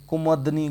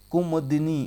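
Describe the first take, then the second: First: कुमदनी slowly, no i after द; wrong form. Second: कुमदिनी slowly, with a clear दि; correct form. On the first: Teacher marking the wrong option, slowly pronounced. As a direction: say कुमदनी drawn out with द and नी joined. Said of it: "गलत है". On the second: Teacher confirming the right option, slowly pronounced. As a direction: draw out कुमदिनी so the i after द is heard. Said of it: "यही सही है". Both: Shown as a demonstration.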